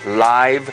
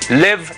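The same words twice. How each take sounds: First: The vowel is long, as in 'five'. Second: The vowel is short, as in 'give'. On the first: It describes an event broadcast as it happens. "same spelling but different pronunciation" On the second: It is the verb meaning to reside or be alive. "Live is what you know very well. Vivir"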